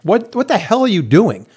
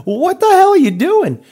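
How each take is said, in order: First: Raised, heated confrontation; exasperated homeowner demanding answers; retold angry demand. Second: Very high, louder, slow outrage; incredulous shout at the contractor; retold outraged yell. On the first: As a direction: confront the contractor, voice up. Storming over to the contractor. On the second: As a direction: let it fly, pitched way up. Second confrontation with contractor.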